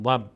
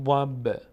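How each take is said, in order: First: ضب with the final b shut dead; stopped b ending ضب, no bounce; ضب without qalqala. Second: ضب with a small bouncing release on the b; qalqala on ضب. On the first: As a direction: close the lips on the b of ضب, no release. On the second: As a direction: let the final b of ضب echo briefly. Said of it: "یعنی میلرزه صدا". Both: Shown as a demonstration.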